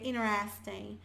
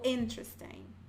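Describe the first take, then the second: First: The T is dropped; N runs into the vowel. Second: The T after the N is clearly pronounced.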